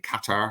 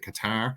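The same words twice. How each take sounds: First: The name does not sound like 'catarrh'. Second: The name sounds like the word 'catarrh'. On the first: The speaker calls it right. "I've actually finally learned how to say it properly" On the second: The speaker calls it wrong. "sounds uh, like that that stuff get that's gets stuck in your throat"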